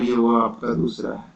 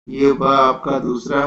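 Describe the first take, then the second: First: "व" said with teeth and lip; ब-व contrast. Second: "व" said as a lip-closed b; ब-व contrast. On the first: Teacher showing students the difference, teeth-and-lip v sound. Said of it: "इसमें आपका दांत का". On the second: Teacher showing students the difference, lip-closed b sound. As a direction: say "व" with both lips, like ब. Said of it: "दोनों में फर्क है". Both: Shown as a demonstration.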